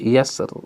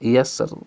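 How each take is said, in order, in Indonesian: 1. R di akhir itu tipis dan ringan. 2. R di akhir itu tipis dan ringan.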